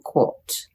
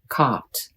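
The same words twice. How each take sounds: First: It is said in a British accent. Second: It is said in an American accent.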